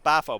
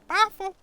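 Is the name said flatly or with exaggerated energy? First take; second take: flatly; exaggerated energy. First: It is said plainly and flatly. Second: It is said with exaggerated, lively energy.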